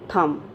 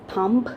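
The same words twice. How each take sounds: First: The final B is silent at the end. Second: The final B is sounded at the end. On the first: The speaker calls it right. "the last letter B is silent here" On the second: The speaker calls it wrong. "is it thumb? No"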